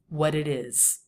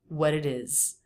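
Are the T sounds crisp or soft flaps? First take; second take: flaps; flaps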